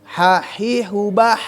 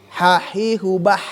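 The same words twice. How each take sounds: Both takes have the same delivery.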